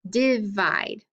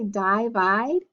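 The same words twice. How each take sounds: First: The first vowel is a short i sound. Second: The first vowel is a long i sound. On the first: "make it a short I" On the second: "my I should be long"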